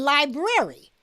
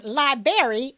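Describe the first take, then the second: First: "library" said as lie-brair-ee; "library" with its first R kept; both Rs sounded. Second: "library" said as lie-berry; "library" with a "berry" ending; dropped first R. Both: Shown as a demonstration. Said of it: "There's a difference between library and library".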